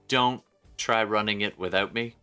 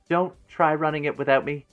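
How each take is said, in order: First: It is said in the speaker's natural voice. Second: It is said in a put-on character voice.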